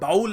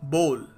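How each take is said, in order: First: The vowel is an 'ow' sound. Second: The vowel is an 'oh' sound. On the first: The speaker calls it wrong. "लोग सोचते हैं ... बाउल है" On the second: The speaker calls it right. "सही तरीके से pronounce करने का तरीका है बोल"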